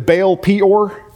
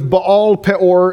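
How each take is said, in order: First: The name is said with an English pronunciation. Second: The name is said with a Hebrew pronunciation. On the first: The speaker calls it wrong. "it sounded better to me than Baal Peor" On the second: The speaker calls it right. "the way you would say it in Hebrew is Baal Peor"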